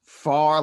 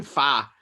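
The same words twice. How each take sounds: First: Said in the usual way. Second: "fa" said with no r; Boston "far". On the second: Shown as a demonstration. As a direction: drop the r in "fa". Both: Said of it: "she'll type in".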